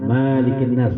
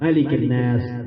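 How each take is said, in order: First: The first vowel of Malik is long. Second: The first vowel of Malik is short. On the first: The speaker calls it wrong. "jangan Malikin Nas, salah itu" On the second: The speaker calls it right. "harus dipendekkan dia"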